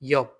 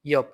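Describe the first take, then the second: Both takes have the same delivery.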